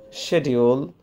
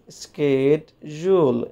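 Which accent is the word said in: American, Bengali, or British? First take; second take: British; American. First: It is said with a British pronunciation. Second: It is said with an American pronunciation. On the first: "In British English, it is pronounced schedule" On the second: "in American English, it is pronounced schedule"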